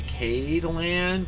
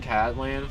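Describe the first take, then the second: First: The first syllable rhymes with 'made'. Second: The first syllable rhymes with 'mad'. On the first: "I get you trying to say Cade Land" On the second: "I've been saying Cadland for this so long"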